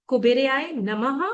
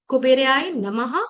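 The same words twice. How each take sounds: Both takes have the same delivery.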